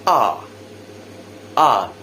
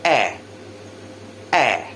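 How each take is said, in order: First: A long open "ah"; British "ah", held long; British vowel sound. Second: Eh, a front vowel as in cat; American front "a", said as eh; American vowel sound. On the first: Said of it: "in British, the sound ah sounds like". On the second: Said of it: "sounds more like eh". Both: Shown as a demonstration.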